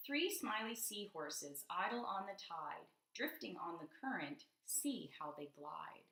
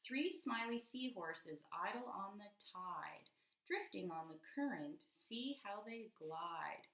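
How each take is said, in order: First: Slow, sing-song picture book reading; reading to children. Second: Slow reread, listening for rhyme. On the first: Acted. Teacher reading a rhyming page to a child, slow and lilting. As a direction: read the rhyme slowly to a child. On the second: Shown as a demonstration. Rereading to a child, slow, drawing the rhyme out. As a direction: reread even slower, leaning on each word. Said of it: "Let me hear again".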